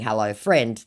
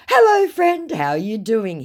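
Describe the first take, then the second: First: Said in the usual way. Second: Very high, loud put-on hello; scammer's greeting. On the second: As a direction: gush hello as the scammer, then settle. Acts scammer greeting, later repeated plain.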